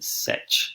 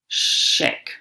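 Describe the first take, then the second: First: The word begins with an 's' sound. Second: The word begins with a 'sh' sound. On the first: "rather than sech" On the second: "shek, people say rather than sech"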